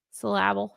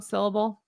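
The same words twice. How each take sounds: First: "Syllable" stressed on the middle: syl-LAB-le; jokingly misplace the stress in "Syllable" onto LAB; wrong stress. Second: Said in the usual way. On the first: Shown as a demonstration. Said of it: "putting the wrong emphasis on the wrong syllable". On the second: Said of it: "wrong emphasis on the wrong syllable".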